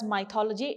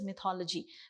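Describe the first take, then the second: First: The first syllable does not sound like 'myth'. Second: The first syllable sounds like 'myth'. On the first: The speaker calls it wrong. "it is wrong" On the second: The speaker calls it right. "M Y T H is myth and it is mythology"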